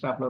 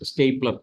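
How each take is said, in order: First: The first vowel sounds like 'ah'. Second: The first vowel sounds like 'ay'. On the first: The speaker calls it wrong. "നമ്മളെപ്പോഴും സ്റ്റാപ്ലർ സ്റ്റാപ്ലർ എന്നാണ് പറയുന്നത്" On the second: The speaker calls it right. "That is എ correct pronunciation"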